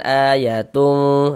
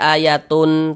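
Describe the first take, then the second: First: The final n is muffled and nasalized. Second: The final n is pronounced clearly. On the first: The speaker calls it right. "tapi disamarkan ayatum" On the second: The speaker calls it wrong. "jangan dibaca ayatun, tun jelas begitu jangan"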